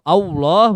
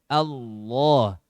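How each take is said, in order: First: The vowel is rounded, sounding close to o. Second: The vowel is open, with unrounded lips. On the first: The speaker calls it wrong. "kalau Allah berarti Allahu" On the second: The speaker calls it right. "yang benar adalah tanpa adanya monyong"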